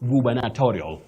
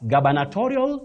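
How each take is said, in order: First: The first syllable sounds like 'gu'. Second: The first syllable sounds like 'ga'. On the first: The speaker calls it right. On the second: The speaker calls it wrong. "not gaba"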